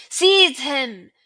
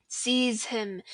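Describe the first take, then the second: First: Much louder shriek of the command; villain shrieking the order. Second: Said in the usual way. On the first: Acted. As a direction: let the second call tear out. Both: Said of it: "shrieked Voldemort again".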